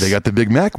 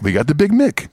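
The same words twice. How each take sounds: First: Said in the usual way. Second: Higher put-on voice on Big Mick; Coming to America impression. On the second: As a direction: mimic the copycat owner, raised and theatrical. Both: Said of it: "a little more Coming to America".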